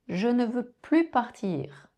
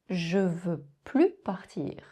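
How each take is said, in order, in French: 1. La particule de négation se prononce entièrement. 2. La particule de négation disparaît complètement.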